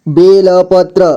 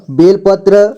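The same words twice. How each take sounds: First: बेलपत्र with ल given its own vowel; syllable by syllable. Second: Said in the usual way. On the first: Shown as a demonstration. Teacher breaking down बेलपत्र for learners, syllable by syllable. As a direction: sound out बेलपत्र piece by piece. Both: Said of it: "जोड़ जोड़ करके".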